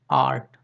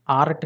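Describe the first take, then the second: First: आर्ट said as "aat", the र silent; long aa straight into t in आर्ट. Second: आर्ट with an audible र before the t; the wrong demo take, sounding the r in आर्ट; R pronounced. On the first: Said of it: "इसको नहीं बोलना है". (आर्ट को "आट" जैसा, बिना र के) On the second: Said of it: "आर्ट नहीं". (आर्ट में र का उच्चारण करते हुए) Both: Shown as a demonstration.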